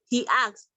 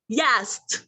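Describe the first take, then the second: First: The two words are said separately. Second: The words join with a y sound between them.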